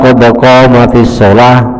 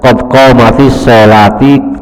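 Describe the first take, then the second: First: The last word ends in a closed -ah sound. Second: The last word ends with an -i vowel. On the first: The speaker calls it right. "lebih baik seperti itu" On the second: The speaker calls it wrong. "daripada qad qamatis sholati"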